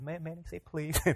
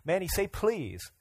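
First: It is said in a much gentler tone. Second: It is said in a stern, demanding tone.

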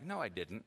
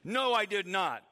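First: It is said softly and gently. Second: It is said forcefully and loudly.

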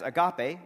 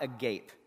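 First: It is pronounced the familiar church way. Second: It is pronounced as the English word for gaping. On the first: "We have known it as agape" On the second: "It's just not agape, right? That's a whole different thing"

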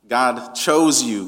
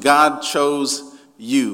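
First: The stress is on chose. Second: The stress is on you.

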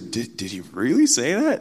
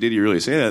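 First: It is said in a mocking, incredulous tone. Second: It is asked as a plain factual question.

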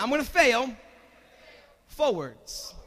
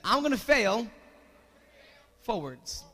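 First: It is said forcefully, with strong conviction. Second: It is said plainly, without much force.

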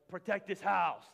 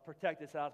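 First: It is said in a gruff, aggressive growl. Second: It is said in an ordinary, mild voice. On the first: The speaker calls it right. "you have to say it like the mean football player" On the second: The speaker calls it wrong. "you don't say Protect This House"

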